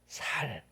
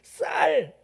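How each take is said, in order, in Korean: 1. 첫 자음은 예사소리, 여린 s예요. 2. 첫 자음은 된소리, 센 s예요. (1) "이 발음을 못하는" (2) "경상도 사람들이 쌀"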